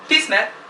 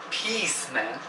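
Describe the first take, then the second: First: The first word has a short 'i' vowel. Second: The first word has a long 'ee' vowel. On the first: It refers to urinating. The speaker calls it wrong. "But when you say piss" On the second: It means peace. The speaker calls it right. "we should be saying"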